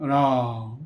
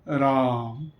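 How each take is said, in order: First: The word is said deeply, resonating from the chest. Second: The word is said deeply, resonating from the chest.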